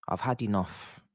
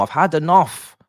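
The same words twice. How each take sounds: First: "had" said quietly, energy gone; deflated, softer. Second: "had" yelled high and loud; furious shout. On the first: Fan giving up on his team, deflated mutter. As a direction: let it fall, worn out. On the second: Fan yelling at his team, furious shout. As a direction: scream it at the screen, fed up. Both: Real, not acted.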